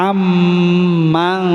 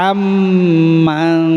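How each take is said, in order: No difference in how they are said.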